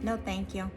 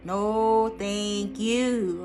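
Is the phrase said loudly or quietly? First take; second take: quietly; loudly. First: It is said at a normal, calm volume. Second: It is said noticeably louder and more forcefully.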